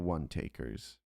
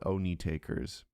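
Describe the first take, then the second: First: The first word sounds like 'won'. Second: The first word sounds like 'oh-nee'. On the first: The speaker calls it right. "It's the one the one takers" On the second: The speaker calls it wrong. "I have this strong desire to call it Oni takers, but I know it's not that"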